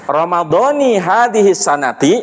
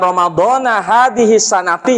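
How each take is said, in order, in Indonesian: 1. Ramadhan berakhir dengan i, sanat berakhir dengan i. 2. Ramadhan berakhir dengan a, sanat berakhir dengan i. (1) "Yang benar ada dua cara"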